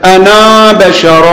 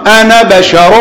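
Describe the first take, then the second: First: The final vowel of 'ana' is drawn out long. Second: The final vowel of 'ana' is kept short. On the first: The speaker calls it wrong. "أنا ما تمد في الكلام، ما تقول مثلا" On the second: The speaker calls it right. "قراءة صحيحة"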